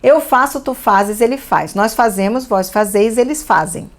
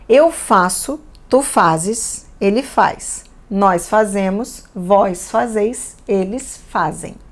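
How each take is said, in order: First: It is read very quickly. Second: It is read at an ordinary, unhurried pace.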